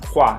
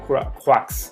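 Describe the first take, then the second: First: The final consonant is silent. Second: The final x sound is pronounced. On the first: The speaker calls it right. "Las X, por ejemplo, tampoco" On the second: The speaker calls it wrong. "en vez de croix, o algo así que me lo quisieran pronunciar"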